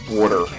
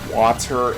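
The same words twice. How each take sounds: First: It is said in an old Baltimore accent. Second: It is said with a standard pronunciation.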